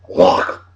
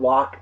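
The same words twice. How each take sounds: First: It is said with a Scottish pronunciation. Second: It is said with a non-Scottish pronunciation. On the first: The speaker calls it right. "They pronounce it Loch" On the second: The speaker calls it wrong. "It's not Loch"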